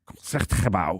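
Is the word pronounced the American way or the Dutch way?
Dutch. The word is said with a Dutch pronunciation. "over there it's something like"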